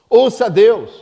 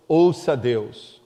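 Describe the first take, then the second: First: "Ouça Deus" louder and higher, "Ouça" hit hard; loud emphasis. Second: "Ouça Deus" low, slow and soft, each word drawn out; slow quiet emphasis. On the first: Preacher commanding the congregation to listen to God. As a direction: punch "Ouça" loud and firm. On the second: Preacher urging the congregation softly to listen. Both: Shown as a demonstration. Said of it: "É necessário que você ouça Deus".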